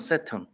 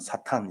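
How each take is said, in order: First: It begins with s, with a reduced second vowel. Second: It begins with s, ending in a clear tan. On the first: "영어로는" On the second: "우리는"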